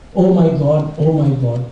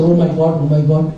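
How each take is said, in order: First: It is said at a normal pace. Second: It is said a little faster.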